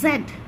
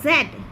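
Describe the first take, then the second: Both takes have the same delivery.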